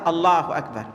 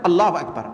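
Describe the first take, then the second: First: It is said at a normal, even pace. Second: It is said quickly and hurriedly.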